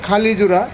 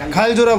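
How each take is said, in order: First: The first word ends in a full final vowel. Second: The first word has its vowel shifted inward. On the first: This is the standard form of the name. "শুদ্ধ বানানো হলো এটা খালি জোড়া" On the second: This is how most local people say it. "আমরা বেশিরভাগ মানুষ এই ... খাইল জোড়া বলে সম্বোধন করি"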